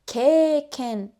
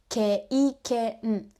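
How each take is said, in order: First: A single vowel sound is held long instead. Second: Two separate vowel sounds are pronounced in each syllable. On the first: The speaker calls it right. "We say keiken, extending e" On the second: The speaker calls it wrong. "we don't say"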